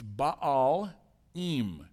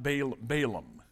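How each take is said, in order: First: The word ends with an 'im' sound. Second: The word ends with an 'am' sound. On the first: It marks the word as plural. The speaker calls it right. "It's Baalim" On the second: It sounds like a single name. The speaker calls it wrong. "I heard this pronounced incorrectly every single time"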